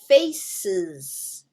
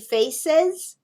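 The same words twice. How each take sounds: First: The second vowel is a short 'i' sound. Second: The second vowel is a clear 'e' sound. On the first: It is the usual pronunciation. The speaker calls it right. "the I sound" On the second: It matches the spelling. The speaker calls it wrong. "That's the way it looks"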